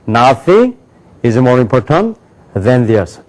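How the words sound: Words run together in three linked groups.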